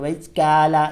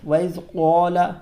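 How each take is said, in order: First: The q sound in qala is thin and light. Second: The q sound in qala is heavy and thick. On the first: The speaker calls it wrong. "ये बारीक हो जाएगा" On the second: The speaker calls it right. "इसको मोटा पढ़ेंगे"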